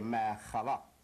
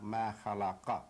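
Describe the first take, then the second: First: The final vowel is dropped, ending on a consonant. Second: The word ends with a short final vowel. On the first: The speaker calls it right. "We say ma khalaq" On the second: The speaker calls it wrong. "not ma khalaqa"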